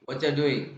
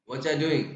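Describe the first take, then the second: The two takes are said the same way.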